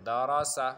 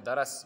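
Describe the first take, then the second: First: دارا سا read in full as "da-ra-sa", louder; firm model reading of دارا سا, every syllable voiced; full pronunciation. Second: درس cut to "daras", final "a" dropped; mispronounced درس. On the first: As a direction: sound the final سا in دارا سا clearly. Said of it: "آپ کو پورا پڑھنا پڑے گا". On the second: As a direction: say درس closed on the s, with no vowel after it. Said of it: "یہ غلط ہے". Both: Shown as a demonstration.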